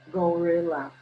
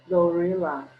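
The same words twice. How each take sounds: No difference in how they are said.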